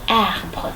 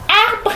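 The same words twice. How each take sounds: First: It is said with the mouth nearly closed. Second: It is said with the mouth opened wide. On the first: The speaker calls it right. "quand je ferme ma bouche, ça devient arbre" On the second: The speaker calls it wrong. "j'ouvre grandement la bouche"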